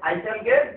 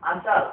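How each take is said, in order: First: Both words are said fully and separately. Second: The words are shortened and run together. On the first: The speaker calls it wrong. "আইসাল বলবেন না" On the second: The speaker calls it right. "Short করে নেওয়ার জন্য"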